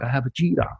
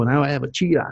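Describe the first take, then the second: First: Cheetah with a rising tune. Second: Cheetah punched as the proud word; boast, leaning on cheetah; stress on cheetah. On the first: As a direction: toss up the word cheetah like a question. Repeats the mock boast. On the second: Mock owner boasting of cheetah. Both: Retold or imitated.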